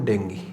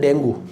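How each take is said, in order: First: The word ends with an 'ee' sound. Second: The word ends with an 'oo' sound. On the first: The speaker calls it right. "इसे बोलेंगे हम डेंगी" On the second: The speaker calls it wrong. "इसे डेंगू नहीं बोलेंगे"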